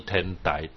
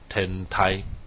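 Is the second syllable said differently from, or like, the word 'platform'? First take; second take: like platform; differently. First: The second syllable sounds like the word for platform. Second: The second syllable differs from the word for platform. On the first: It shows the speaker does not know Tiantai studies. The speaker calls it wrong. "绝对不是天台，台台就是台子" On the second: It names the Tiantai school correctly. The speaker calls it right. "就是天台"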